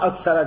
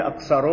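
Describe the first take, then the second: First: اکثر ending in "-a", "aksara"; accusative ending. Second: اکثر ending in "-u", "aksaru"; nominative ending. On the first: Teacher explains the verse's accusative, "aksara" ending. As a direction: say اکثر with a short "a" after the r. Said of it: "اکثر کی نسب جو ہے". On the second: Teacher gives the expected alternative case, nominative "aksaru" ending. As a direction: say اکثر with a rounded "u" after the r. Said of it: "پھر یہ اکثر ہونا چاہیے تھا". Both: Shown as a demonstration.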